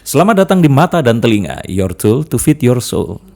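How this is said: It is said in a flat voice.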